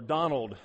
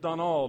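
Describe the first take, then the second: First: The name is said with an English pronunciation. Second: The name is said with an Albanian pronunciation. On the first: This is how the speaker's own people say the name. "as we would say it" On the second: This is how the name is said locally. "his name was Donald"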